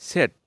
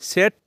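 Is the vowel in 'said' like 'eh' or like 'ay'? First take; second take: eh; eh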